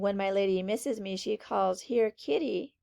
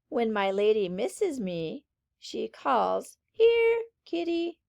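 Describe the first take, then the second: First: It is read straight through without pauses. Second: It is read with short pauses at commas. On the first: The speaker calls it wrong. "rather than saying" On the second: The speaker calls it right. "you're going to take a little pause there"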